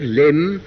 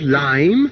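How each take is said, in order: First: The vowel is short, rhyming with slim. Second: The vowel is long, rhyming with time.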